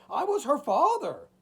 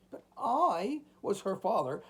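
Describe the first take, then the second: First: High, loud anguished cry. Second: Higher, pleading protest; crying out. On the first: Old man crying out to the shadows, louder anguish. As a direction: cry it out in desperation. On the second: Old man crying out to the shadows, pleading. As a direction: appeal as a desperate father. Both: A narrator's reading. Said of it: "cried the old man".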